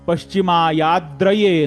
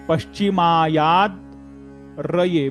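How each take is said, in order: First: The word is said joined without any break. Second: The word is split with a break before 'raye'. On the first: The speaker calls it right. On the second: The speaker calls it wrong.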